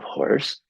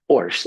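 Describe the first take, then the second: First: The opening h sound is pronounced. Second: The opening h sound is dropped. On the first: The speaker calls it right. "instead of horse" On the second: The speaker calls it wrong. "the ha is silenced"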